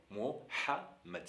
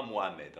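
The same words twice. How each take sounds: First: Mohammed with a breathy throat h in the middle. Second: Mohamed with a light ordinary h; plain h in Mohamed. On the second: Teacher showing the wrong version, with a plain h. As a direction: say Mohamed the French way. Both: Shown as a demonstration. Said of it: "C'est pas Mohamed".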